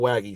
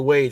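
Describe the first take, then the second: First: The name is said as two syllables. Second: The name is said as one syllable. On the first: "not Waggy" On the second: "I say Wage"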